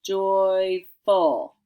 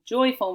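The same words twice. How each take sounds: First: "Joyful" loud and stretched, joy, then full; careful dictation. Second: Said in the usual way. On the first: Shown as a demonstration. Teacher dictating the word to pupils, emphatic separated "Joyful". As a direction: punch out both syllables of "Joyful" slowly. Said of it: "your word is".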